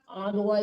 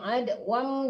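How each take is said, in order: First: The word ends on an open vowel. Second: The word ends with a clear m sound. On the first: The speaker calls it wrong. "jangan adwa adwa itu kalau kita baru wakaf" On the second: The speaker calls it right. "nekannya ke mim ya"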